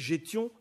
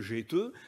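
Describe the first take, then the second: First: The word ends in a nasal ion sound. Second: The word ends in an eu vowel. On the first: This is the form used in the Oise. "dans l'oise" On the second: This is the form used in one Picard area. "dans le vimeux"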